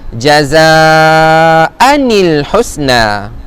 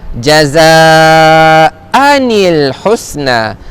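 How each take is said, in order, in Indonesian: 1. Bunyi 'n' penyambung menghubungkan kedua kata. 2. Bunyi 'n' penyambung menghubungkan kedua kata.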